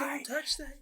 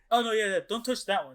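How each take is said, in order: First: High-pitched mock shout; hammed-up squeaky alarm; Toad. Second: Higher voice, breaking into a laugh; laughing mock caution; retold casual warning. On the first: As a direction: echo the cartoon warning in a high squeal. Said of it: "then Toad pops up". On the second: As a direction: lightly imitate a quick warning, amused. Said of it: "And then he goes".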